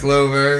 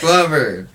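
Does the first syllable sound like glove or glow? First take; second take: glow; glove. First: The first syllable sounds like glow. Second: The first syllable sounds like glove. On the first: The speaker calls it wrong. "It's not Glover" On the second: The speaker calls it right. "glove, not glow"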